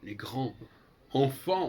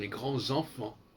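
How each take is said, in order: First: Grands and enfants are said without a linking t. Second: Grands and enfants are joined by a linking t. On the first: The speaker calls it wrong. "on ne va pas dire" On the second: The speaker calls it right. "on va dire"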